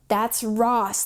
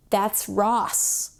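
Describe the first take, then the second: First: Said in the usual way. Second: Breathless whisper of recognition; awed whisper. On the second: Retold or imitated. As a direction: whisper it like a sudden realization. Whispered realization in retold meditation.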